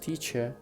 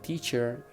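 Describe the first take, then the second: First: The final R sound is left silent. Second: The final R sound is pronounced. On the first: The speaker calls it right. "it's just teacher" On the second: The speaker calls it wrong. "Teacher in the British English is not teacher"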